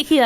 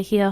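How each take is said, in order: First: Attempted American-accented "here"; amateur American accent, amused at yourself. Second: Said in the usual way. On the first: Shown as a demonstration. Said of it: "in an American accent".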